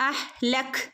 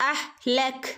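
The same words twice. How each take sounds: Both takes have the same delivery.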